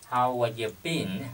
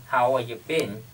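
No difference in how they are said.

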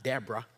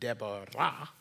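First: The name is given its usual English pronunciation. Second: The name is given its Hebrew pronunciation. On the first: The speaker calls it wrong. "not Deborah" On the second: The speaker calls it right. "It's actually Deborah in the Hebrew"

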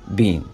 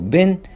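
First: The vowel is long, as in 'bean'. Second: The vowel is short, as in 'bin'. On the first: "لكن بالبريتش بننطقه بين" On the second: "فبالامريكي بنقراه بين"

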